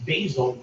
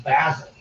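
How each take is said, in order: First: Basil with a long "bay" start; American basil. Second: Basil with a short "a"; British basil. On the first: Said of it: "We say basil". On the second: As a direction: say basil as BAZ-ul. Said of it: "you say basil". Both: Shown as a demonstration.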